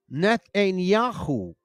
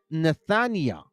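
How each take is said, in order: First: Nethaniah as neth-ay-nee-YAH-khoo; slow Nethaniah with a khoo ending; Hebrew-style pronunciation. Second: Nethaniah as neth-uh-NYE-uh; English pronunciation. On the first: Preacher shows viewers the hidden name, Nethaniah slowly as neth-ay-nee-yah-khoo. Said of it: "So if you go Nethaniah". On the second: Preacher shows the written name, Nethaniah slowly as neth-uh-nye-uh. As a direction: Nethaniah ending without any hoo. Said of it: "You see that?". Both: Shown as a demonstration.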